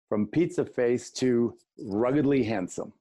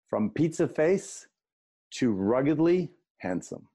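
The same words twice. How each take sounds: First: It is said at a quicker pace. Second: It is said at a slower pace.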